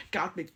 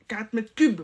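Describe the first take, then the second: First: Whispered aside on "Quarante mètres cubes"; whispering the wrong unit to herself. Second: Said in the usual way. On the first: Acted. Self-correction, then whispered aside.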